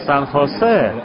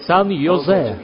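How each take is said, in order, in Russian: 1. Второе слово начинается со звука H. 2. Второе слово начинается со звука Y. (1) "Это Сан Хосе" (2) "где находится Сан Йозе?"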